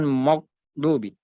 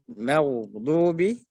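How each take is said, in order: First: "maghdubi" starting "mogh"; thick mim. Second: "maghdubi" with open "ma", slowly; thin mim. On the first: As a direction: round "ma" in "maghdubi" to "mo". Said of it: "Bukan mo". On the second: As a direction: keep the first syllable of "maghdubi" light. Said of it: "Mim huruf tipis". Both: Shown as a demonstration.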